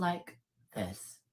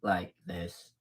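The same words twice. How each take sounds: First: A bit lower and slower; first step down toward a deep voice. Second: Much lower and softer; the deep voice she warns against. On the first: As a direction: drop the voice a little, drawn out. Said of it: "but your voice sounds like this". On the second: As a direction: sink right down to a deep masculine pitch. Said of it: "sounds like this, like this". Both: Shown as a demonstration.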